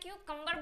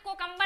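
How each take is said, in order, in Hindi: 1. पहला अक्षर 'kyoo' की तरह बोला गया है। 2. पहला अक्षर 'ko' की तरह बोला गया है। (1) "क्यूकम्बर बोलना है" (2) "यहाँ पे कोकम्बर आपको नहीं बोलना है"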